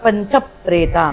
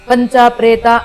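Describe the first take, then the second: First: Panca and preta run together without a gap. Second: A gap separates panca from preta. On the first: The speaker calls it right. "ಈ ರೀತಿಯಾಗಿ ಹೇಳೋ ಅಭ್ಯಾಸ ಮಾಡ್ಕೊಂಡ್ರೆ" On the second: The speaker calls it wrong. "Gap ಕೊಡ್ದೀರಾ ಪಂಚ ಪ್ರೇತ ಅಂತ ಹೇಳ್ಬಾರ್ದು"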